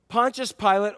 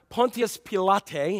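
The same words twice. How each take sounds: First: The name is said in a plain, everyday way. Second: The name is said in a formal, learned way.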